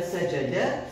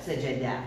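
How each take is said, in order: First: Sajada with a short, indistinct final vowel; careless pronunciation. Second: Sajada with an open A ending, lower and falling; contrasting final vowel. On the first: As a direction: say sajada ending on a short uh-like sound. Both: Shown as a demonstration. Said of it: "nous arrivons à prononcer mal".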